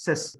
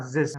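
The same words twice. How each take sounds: First: "cis" with unvoiced S at both ends; S sound. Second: "zis" started with a buzzed Z; wrong Z sound. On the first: Teacher reminding student there is no Z, S sounds on "cis". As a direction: say "cis" without any Z buzz. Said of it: "There's no Z in the S". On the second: Teacher showing student the mistake, buzzed Z on "zis". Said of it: "not zis". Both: Shown as a demonstration.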